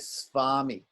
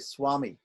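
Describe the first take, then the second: First: The consonant after the S sounds like V. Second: The consonant after the S sounds like W. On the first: The speaker calls it wrong. "We don't say Swami" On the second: The speaker calls it right. "We say Swami"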